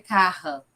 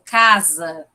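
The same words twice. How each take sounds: First: Carra with a throaty h sound in place of the s; glottal r. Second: Said in the usual way. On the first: Shown as a demonstration. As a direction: say carra, the s turned into a breathy h. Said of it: "Então, no caso, seria". (carra com s aspirado) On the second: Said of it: "Por exemplo".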